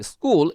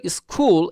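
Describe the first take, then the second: First: "স্কুল" with a plain Bengali ক sound; correct pronunciation demo. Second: "স্কুল" said the way to avoid; wrong pronunciation demo. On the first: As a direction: say "স্কুল" with an unaspirated k. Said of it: "এটা বাংলা কয়ের সঙ্গে". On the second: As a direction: say "স্কুল" with a puff of air on the k. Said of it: "এরকম হবে না কিন্তু". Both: Shown as a demonstration.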